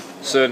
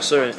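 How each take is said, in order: First: The word sounds like Scottish 'son'. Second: The word does not sound like Scottish 'son'. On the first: The speaker calls it right. "like a Scottish man saying "son."" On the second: The speaker calls it wrong. "It's not CERN"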